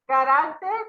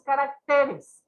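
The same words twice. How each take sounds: First: "Carácter" stressed on RÁC, higher and louder; stress on second syllable. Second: "caracteres" stressed on the syllable TE; stress moved to TE. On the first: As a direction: hit the middle syllable of "Carácter". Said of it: "es una palabra grave". ("Carácter" con acento en RÁC) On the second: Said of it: "pero se movió la sílaba". ("caracteres" con acento en TE) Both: Shown as a demonstration.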